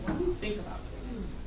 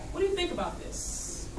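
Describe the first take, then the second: No difference in how they are said.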